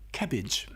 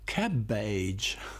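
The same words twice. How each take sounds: First: The second vowel is short and reduced. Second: The second vowel is long, as in age. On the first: This is how the word is actually said. The speaker calls it right. "you adjust it to make it cabbage" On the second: This is how the spelling suggests it is read. The speaker calls it wrong. "cabbage looks like cabbage"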